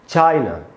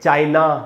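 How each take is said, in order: First: The final vowel is a short, reduced 'uh'. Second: The final vowel is a long, full 'aa'. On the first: The speaker calls it right. "आधा अ होगा" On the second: The speaker calls it wrong. "न कि चाइना, आ नहीं होगा"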